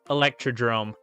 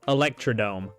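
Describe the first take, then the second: First: The last part is said as drome, with r. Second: The last part is said as dome, without r. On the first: The speaker calls it right. "Electrodrome? Not Electrodome" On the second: The speaker calls it wrong. "I've been saying it wrong this whole time"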